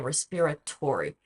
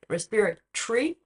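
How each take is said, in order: First: It has an American English pronunciation. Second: It has an Australian pronunciation ending like 'tree'. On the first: "in American English they say respiratory" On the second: "We say in Australia respiratory. It's like tree"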